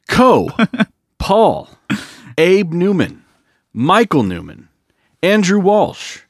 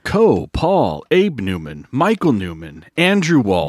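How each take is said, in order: First: The names are read slowly. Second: The names are read fast.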